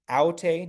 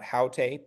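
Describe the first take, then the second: First: "aute" with no h at the start; soft breathing. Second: "haute" with an h at the start; rough breathing. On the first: Tutor shows student soft breathing, no h on "aute". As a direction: say "aute" on an open vowel, no aspiration. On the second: Tutor shows student the wrong form, h on "haute". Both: Shown as a demonstration. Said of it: "the soft breathing".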